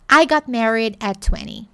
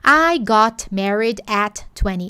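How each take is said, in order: First: The T and D are softened and run together. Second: Each word is said separately with crisp sounds. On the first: The speaker calls it right. "suaviza esse T. I got married e suaviza esse D também" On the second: The speaker calls it wrong. "Ao invés de"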